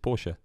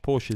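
First: It is said the German way. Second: It is said the usual English way. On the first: The speaker calls it right. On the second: The speaker calls it wrong.

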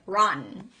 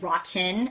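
First: The T is weak or swallowed. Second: The T is pronounced strongly and over-clearly. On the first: "or I say it like rotten" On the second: "I either say it too much, like I say rotten and no one says it that way"

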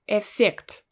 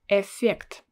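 Both takes have the same delivery.

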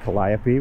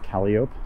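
First: The name is pronounced the classical Greek way. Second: The name is pronounced the local street way. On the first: "The next one after that is Calliope" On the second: "which we pronounce Calliope"

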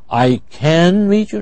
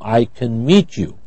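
First: The word 'can' is stressed with a full vowel. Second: The word 'can' is unstressed with a reduced vowel. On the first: The speaker calls it wrong. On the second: The speaker calls it right. "Can is unstressed, so the vowel is reduced"

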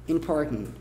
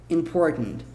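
Both takes have the same delivery.

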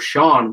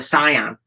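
First: The name does not sound like 'Saiyan'. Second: The name sounds like 'Saiyan'. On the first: This is the name as the family uses it. The speaker calls it right. "his sister was called Sian, but it's spelled S-I-A-N because they were Welsh" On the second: This is how other people misread the name. The speaker calls it wrong. "everyone used to call a Cyan ... a Super Cyan, which is from Dragon Ball Z"

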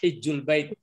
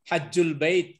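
First: The first vowel is a close 'i' sound. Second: The first vowel is an open 'a' sound. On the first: "dibaca dengan kasrah" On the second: "Ada yang membaca patah"

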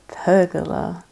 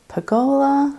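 First: It is said the way England says it. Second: It is said the Australian way. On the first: "here it is called a pergola" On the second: "which I would say as pergola"

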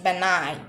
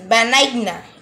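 First: The G sound is silent. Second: The G sound is pronounced. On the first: The speaker calls it right. "The correct one is benign" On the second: The speaker calls it wrong. "It will not be like this. Benigna. It's incorrect"

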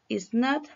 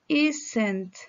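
First: Two separate full words are said. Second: One contracted word is said. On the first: "Esta es la manera larga" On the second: "Ahora con contracción"

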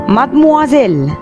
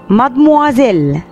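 Both takes have the same delivery.

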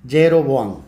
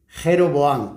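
First: It begins with a soft y-sound. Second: It begins with a harsh throaty sound. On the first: This is how speakers of other languages say it. "El resto de los idiomas, la J la pronuncian ya, ye, ji, yo, yu" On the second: This is how Spanish speakers say it. "porque los pronunciamos la J, somos los españoles y los árabes"

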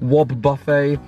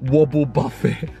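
First: The first part is said as 'wob'. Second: The first part is said as 'wobble'. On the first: The speaker calls it right. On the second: The speaker calls it wrong. "not Wobble Buffet"

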